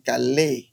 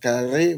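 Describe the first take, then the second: First: The middle consonant is an L sound. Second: The middle consonant is an R sound. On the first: This is how the local dialect says it. "because of the dialect, ... we say kale" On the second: This is the form without the dialect. "we don't pronounce the re. Instead of kare"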